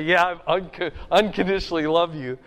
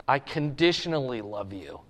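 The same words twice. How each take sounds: First: Fast, stumbling rush over the big word; hard to say. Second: Humble admission. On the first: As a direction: blurt the promise out in a hurry. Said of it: "It's kinda hard to say". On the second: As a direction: lower and softer, a modest confession. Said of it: "Peter says". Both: Retold or imitated.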